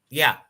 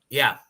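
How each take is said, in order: The two takes are said the same way.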